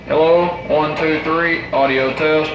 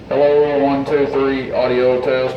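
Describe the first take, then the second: First: The voice passes through the equalizer at its set levels. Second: The voice passes through with every equalizer band lowered. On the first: "You see where we've got it set right now" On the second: "That's with all of the E Q settings all the way down"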